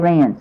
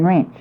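First: The word ends with an 's' sound. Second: The word ends with a 'ch' sound. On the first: This is the learned pronunciation. "I learned to say rinse" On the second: This is the natural childhood pronunciation. "I grew up saying wrench"

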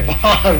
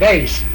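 First: The word has a Boston-style pronunciation. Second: The word has the local pronunciation. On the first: Some other people say it this way. "Some people say vase, but we don't say vase... what we'd call a Boston accent" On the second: The speaker's own community says it this way. "We say vase"

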